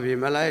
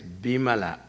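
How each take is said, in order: First: The word begins with a V sound. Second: The word begins with a B sound. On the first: "Instead of Vimala" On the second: "it is Bimala"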